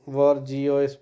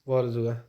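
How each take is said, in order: First: The word ends with an 'ee-oys' sound. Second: The word ends with a 'zhwah' sound. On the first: The speaker calls it wrong. "ऐसे वॉरजियोइस पढ़ो नहीं" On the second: The speaker calls it right. "इसका जो pronunciation है वो थोड़ा हटके है"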